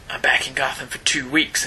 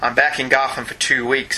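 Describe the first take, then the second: First: The voice is put on as gruff and Batman-like. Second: The voice is lighter, not Batman-like. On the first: "you have your Batman voice on when you do that" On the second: "Slam shouldn't sound like Batman"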